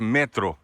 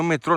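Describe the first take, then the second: First: The stress falls on the first syllable. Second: The stress falls on the last syllable. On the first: The speaker calls it right. "metro, metro, metro, não fala metrô" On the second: The speaker calls it wrong. "não é metrô não"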